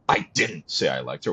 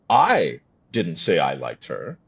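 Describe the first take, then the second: First: The word didn't is stressed. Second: The first word, I, is stressed. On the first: The speaker denies saying it. "Oh, oh, sorry" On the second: Someone else said it. "Oh, okay, well, who did?"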